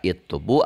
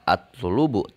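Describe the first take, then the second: First: The word begins with an i vowel. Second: The word begins with an a vowel. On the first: "Tidak itlubu" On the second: "tidak atlubu"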